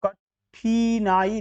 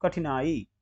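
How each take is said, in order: First: कठिनाई as slow "ka-theee-naai"; wrong long ee. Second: कठिनाई as "kathinaai", quick middle; short i. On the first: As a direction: drag out ठि in कठिनाई. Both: Shown as a demonstration. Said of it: "कठिनाई नहीं".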